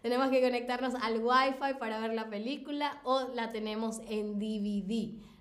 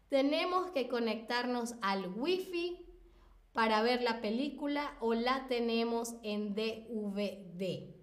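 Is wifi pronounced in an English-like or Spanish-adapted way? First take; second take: English-like; Spanish-adapted. First: Wifi is pronounced with English-like sounds. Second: Wifi is pronounced with Spanish-adapted sounds. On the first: This is typical of Latin America. "Lo pronunciamos como es la pronunciación en inglés" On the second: This is typical of Spain. "En España se tiende más a españolizar la pronunciación de palabras extranjeras"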